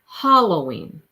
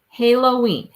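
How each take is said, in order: First: The first vowel sounds like in hall. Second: The first vowel sounds like in halo. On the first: "like hall, like you go down the hall" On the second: "Halo, ha, Halloween"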